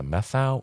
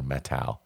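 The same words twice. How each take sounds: First: Methow said with a TH, METH-ow; mistaken pronunciation. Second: Methow said with a hard T, MET-how; correct pronunciation. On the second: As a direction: say Methow with T in place of TH. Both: Shown as a demonstration. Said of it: "they said it's Methow".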